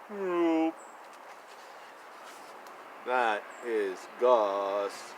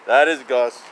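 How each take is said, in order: First: Much lower, slow, soft dog voice; grumpy dog voice. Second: Said in the usual way. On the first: Pretend. Reading to child as Gus, low slow dog voice.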